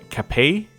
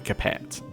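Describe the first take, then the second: First: The name is pronounced the French way. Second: The name is pronounced the English way. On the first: The speaker calls it right. "correction in pronunciation for this guy. It is apparently, I believe" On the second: The speaker calls it wrong. "you wouldn't say Capet, because that would make you sound uneducated"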